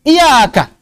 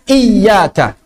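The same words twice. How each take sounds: First: The y sound is single and short. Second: The y sound is doubled and held. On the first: The speaker calls it wrong. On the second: The speaker calls it right. "ya-nya ada dua"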